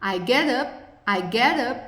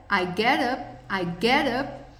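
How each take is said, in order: Both takes have the same delivery.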